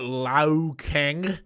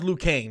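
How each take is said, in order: First: The first name is said like 'Lao'. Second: The first name is said like 'Lyoo'. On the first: The speaker calls it wrong. "he mispronounced Liu Kang's name" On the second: The speaker calls it right. "you don't even know how to pronounce Liu Kang"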